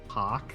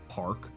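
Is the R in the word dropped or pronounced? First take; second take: dropped; pronounced. First: The R sound after the vowel is dropped. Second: The R sound after the vowel is pronounced. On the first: It is said the Boston way. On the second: It is said the ordinary way.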